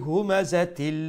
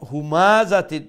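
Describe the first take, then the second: First: The 'ma' vowel is said short and quick. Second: The 'ma' vowel is drawn out long. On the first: The speaker calls it right. "জবরজের পেশ থাকবো তাড়াতাড়ি কইমু" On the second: The speaker calls it wrong. "যদি কই তে মা লম্বা করিলাম"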